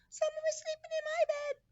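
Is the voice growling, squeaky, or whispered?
squeaky. It is said in a high squeaky voice.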